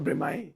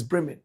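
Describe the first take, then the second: First: Bremen said as "bre-MAI"; wrong Bremen. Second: Bremen said as "BREM-in"; short second syllable in Bremen, ending in n; correct Bremen. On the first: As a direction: end Bremen on an open "mai", no n. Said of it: "not Bremen". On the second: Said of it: "This is Bremen". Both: Shown as a demonstration.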